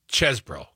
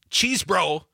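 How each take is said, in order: First: The first syllable has a short 'e' vowel. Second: The first syllable has a long 'ee' vowel. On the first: The speaker calls it right. "the E's is like dessert, not desert" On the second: The speaker calls it wrong. "It's not cheese bro"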